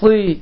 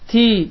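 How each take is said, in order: First: The t is thick and emphatic. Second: The t is plain and light. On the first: "daha qalın formada çıxır" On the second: "T hərfinin məxrəci ilə bu hərfi fərqləndirsək"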